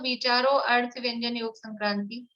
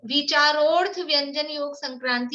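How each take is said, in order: First: The first two words are said separately. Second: The first two words merge, dropping the a. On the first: The speaker calls it wrong. "जिनसे नहीं बोलता है तो ... वैसा बोलें, पर सही तरीका वही है" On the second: The speaker calls it right. "अ silent है तो ... ऐसे बोलना चाहिए"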